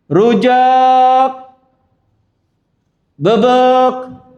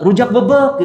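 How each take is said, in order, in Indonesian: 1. Ada jeda di antara kedua kata itu. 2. Kedua kata itu menyatu tanpa jeda.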